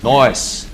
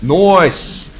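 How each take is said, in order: First: Said in the usual way. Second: "Nice" said as drawn-out "noice". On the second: Pretend. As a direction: stretch "Nice" into a loud "noice". Second nice, stretched and louder.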